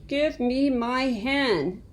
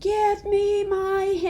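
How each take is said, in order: First: It is said a little louder. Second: It is said very loudly.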